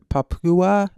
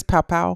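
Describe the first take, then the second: First: Papua said PAH-poo-uh, in three syllables; mispronounced attempt. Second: Papua said PAH-pow, in two syllables; corrected pronunciation, checking. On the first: Host reading aloud tries the name, Papua as PAH-poo-uh. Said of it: "Papua New Guinea". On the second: Host checks the co-host's correction, Papua as PAH-pow. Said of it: "Is that what it is?". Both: Real, not acted.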